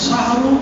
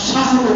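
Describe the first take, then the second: The two takes are said the same way.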